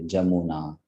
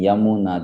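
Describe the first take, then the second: First: The word begins with a j sound. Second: The word begins with a y sound. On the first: "they pronounce ya as ja" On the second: "they don't pronounce ya as ya"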